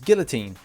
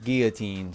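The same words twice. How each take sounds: First: It is pronounced with an English pronunciation. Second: It is pronounced with a French pronunciation. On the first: "in the English fashion" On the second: "If you're a French national, French speaking, then you would pronounce it as"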